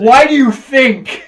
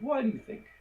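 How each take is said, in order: First: It is said in an intense, pointed way. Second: It is said in a relaxed, casual way.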